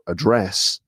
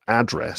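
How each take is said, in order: First: The stress is on the last syllable. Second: The stress is on the first syllable. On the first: This is the British way of saying it. "in the UK, they're pronounced with the stress on the last syllable" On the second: This is the American way of saying it. "in the US, you put the stress on the first syllable"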